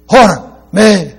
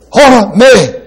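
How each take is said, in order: First: "Hora me" stressed on "Hora", high and loud; emphatic Greek. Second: "Hora me" hit hard and high; emphatic Greek. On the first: Repeating the Greek for the congregation, emphatic. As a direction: lean on "Hora" in "Hora me". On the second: Teaching the Greek prohibition, emphatic "Hora me". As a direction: spit out "Hora me" as a sharp ban. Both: Shown as a demonstration. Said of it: "Very emphatic in the sounds".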